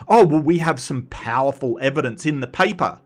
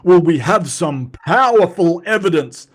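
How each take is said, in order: First: Said in the usual way. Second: Louder, puffed-up mock of a grand claim; mocking Donnie's paper, a loud pompous quote. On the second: Mocking Donnie's paper wording, puffed-up and pompous. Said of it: "scientists don't go".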